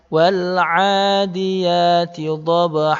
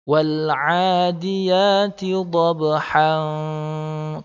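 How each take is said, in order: First: The last word ends on an open 'a' vowel. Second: The last word ends with an 'n' sound. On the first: The speaker calls it wrong. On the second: The speaker calls it right. "han ini tetap berfungsi"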